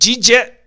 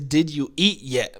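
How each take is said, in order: First: The question is squeezed into one short word. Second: Every word of the question is said in full. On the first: "in order to say it in Texas, um, you have to say it" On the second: "what it means is"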